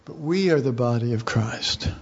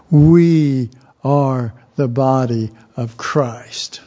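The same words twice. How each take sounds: First: Said in the usual way. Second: Louder, slower, leaning on "We"; emphatic repeat. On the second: Shown as a demonstration. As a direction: drive home "We" loud and slow.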